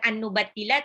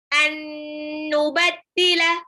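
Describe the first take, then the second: First: The nasal n is cut short, not held. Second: The nasal n is held with a hum. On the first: The speaker calls it wrong. "Jadi bukan an-nubaddila tapi ditahan" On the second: The speaker calls it right. "nun sukun ketemu nun, itu idgham bi gunnah"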